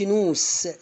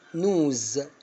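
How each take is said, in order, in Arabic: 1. الصوت الأخير صوت s مثل الصفير. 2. الصوت الأخير صوت z مثل الطنين. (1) "ما اقولش" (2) "نطقتها زي الزين"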